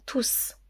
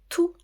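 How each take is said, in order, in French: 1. Le s final se prononce. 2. Le s final est muet. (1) "on prononce le S" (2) "on ne prononce pas le S"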